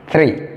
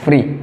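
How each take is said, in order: First: It begins with the tongue between the teeth. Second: It begins with an f sound. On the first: The speaker calls it right. "vous sortez la langue, ça devient three" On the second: The speaker calls it wrong. "Quand tu prononces free, c'est le mot là que tu aurais prononcé"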